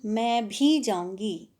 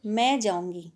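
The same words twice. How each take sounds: First: Slow, with भी leaned on and falling; drawn-out "मैं भी जाऊँगी" with weight on भी; stress on भी. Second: Said in the usual way. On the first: Shown as a demonstration. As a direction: press down on भी to mean "me too". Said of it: "निपात का मतलब है बल डालना, जोर डालना". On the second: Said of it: "इसमें मैं simply रूप से".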